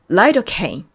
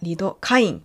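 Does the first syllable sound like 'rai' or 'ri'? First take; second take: rai; ri. First: The first syllable is said as 'rai'. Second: The first syllable is said as 'ri'. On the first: "つまり、ライドカイン。という風になっていた" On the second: "リのところがライというふうに読まれまして"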